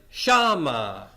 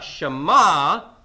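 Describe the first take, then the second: First: The stress is on the first syllable. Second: The stress is on the last syllable. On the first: The speaker calls it right. "but shama" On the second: The speaker calls it wrong. "Not shama"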